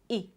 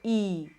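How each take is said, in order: First: The vowel sound is kept short. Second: The vowel sound is drawn out long. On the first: The speaker calls it right. "these are short" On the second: The speaker calls it wrong. "So you don't go E"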